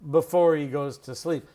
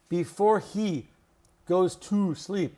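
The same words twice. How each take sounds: First: The words are reduced and run smoothly together. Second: Each word is pronounced fully with much mouth movement. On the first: The speaker calls it right. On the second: The speaker calls it wrong.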